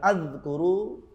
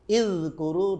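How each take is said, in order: First: The word begins with an 'a' vowel. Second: The word begins with an 'i' vowel. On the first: "Tidak boleh dibaca" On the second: "tidak boleh"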